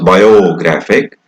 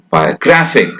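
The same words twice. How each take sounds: First: The unstressed vowel is pronounced full, not reduced. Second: The unstressed vowel is reduced to a weak schwa. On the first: The speaker calls it wrong. "we don't pronounce biographic" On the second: The speaker calls it right. "we pronounce it biographic ... It becomes a weak schwa sound"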